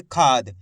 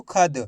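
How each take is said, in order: First: खाद with weight on a long खा, dropping low; stress on खा. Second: खद with a short, unstretched vowel after ख; wrong short vowel. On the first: Teacher showing learners the right reading, stressed long खा. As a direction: lean on the खा in खाद and hold its vowel. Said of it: "खा पे जोर लगाएंगे". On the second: Teacher warning learners off a misreading, short vowel. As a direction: say खद quickly, without the long आ. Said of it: "ऐसे नहीं पढ़ना आपको". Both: Shown as a demonstration.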